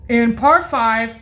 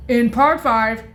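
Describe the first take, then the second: No difference in how they are said.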